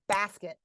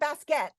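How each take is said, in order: First: The second syllable has a reduced vowel. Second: The second syllable has a full vowel. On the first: The speaker calls it right. "that leaves the unstressed syllable with a reduced vowel sound" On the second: The speaker calls it wrong. "It's not a basket"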